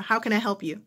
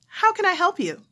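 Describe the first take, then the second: First: Said in the usual way. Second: Much higher and louder, steering back to business; How can I help you pushed up high and loud to move on; pushy bright operator. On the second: Retold or imitated. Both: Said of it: "phone operator".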